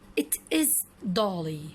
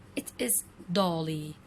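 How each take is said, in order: No difference in how they are said.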